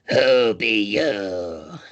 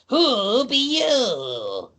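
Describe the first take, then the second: First: It is said in a rough, raspy voice. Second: It is said in a plain, normal voice.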